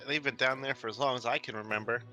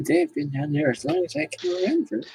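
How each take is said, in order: First: It is said without an old man voice. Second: It is said in an old man voice.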